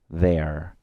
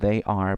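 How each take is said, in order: First: Said as one short word, without the y glide. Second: Said as two words, with a y glide. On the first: "si quiero hacer una contracción... ya no pronuncio la i" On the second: "Yo digo acá they are"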